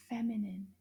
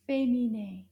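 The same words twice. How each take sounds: First: Said in the usual way. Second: Féminin said the French way, nasal final vowel; French pronunciation. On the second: Shown as a demonstration. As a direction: say féminin in French, not feminine.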